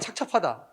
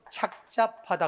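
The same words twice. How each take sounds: First: The second syllable starts with a tensed consonant. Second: The second syllable starts with a plain consonant. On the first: The speaker calls it wrong. "X죠" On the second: The speaker calls it right. "기역과 지읒, 안울림과 안울림만 나와서 착잡하다 그래야 돼"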